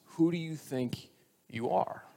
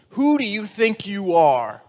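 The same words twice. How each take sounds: First: Soft, measured, with a pause; earnest question. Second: Slow, loud, higher demand; stern principal. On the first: Real, not acted. Preacher puts the last question to us, quietly earnest. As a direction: let it land quietly and sincerely. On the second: Acted. Principal confronts the boy in his office, indignant. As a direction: draw out an indignant challenge. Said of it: "the principal looks at him and asks him".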